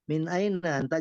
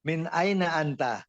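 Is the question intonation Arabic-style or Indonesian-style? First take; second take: Indonesian-style; Arabic-style. First: It has an Indonesian-style question intonation. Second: It has a changed, Arabic-style question intonation. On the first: The speaker calls it wrong. "pertanyaannya nggak nggak seperti bahasa Indonesia Pak ya. ... jangan gitu" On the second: The speaker calls it right. "Intonasinya dirubah"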